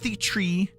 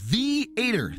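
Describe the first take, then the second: First: The word is said in fewer syllables. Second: The word is said in three syllables. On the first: The speaker calls it wrong. "not the tree" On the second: The speaker calls it right. "it is the-ater"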